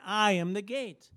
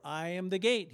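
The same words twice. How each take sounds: First: "I am the gate" declared louder, pressing on "I"; emphatic repeat. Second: Said in the usual way. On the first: Shown as a demonstration. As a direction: proclaim "I am the gate" with force. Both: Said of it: "He says it again".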